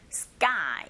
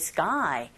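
First: "sky" with a hard unaspirated k, like "sGAI"; tense k. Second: "sky" with a breathy k, like "seu-KHAI"; aspirated k. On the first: Teacher models the tensed consonant, "sky" with tense k. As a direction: say "sky" with a tight k and no puff. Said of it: "된소리 현상이 일어나기 때문에". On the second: Teacher shows learners what to avoid, "sky" with aspirated k. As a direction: say "sky" with a puff of air after the k. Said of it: "sky라기보다는". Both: Shown as a demonstration.

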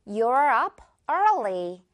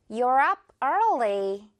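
First: Very slow, early drawn out; slow model sentence. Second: Very slow, early stretched; slow repeat. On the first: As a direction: say it slowly, stretching early. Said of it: "예문 바로 볼까요". (천천히 early 늘여서) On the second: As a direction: model it slowly again. (천천히 다시 말하기) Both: Shown as a demonstration.

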